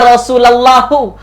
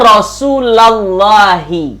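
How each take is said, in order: First: The word ends with a u sound. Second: The word ends with an i sound. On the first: The speaker calls it wrong. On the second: The speaker calls it right. "baris bawah"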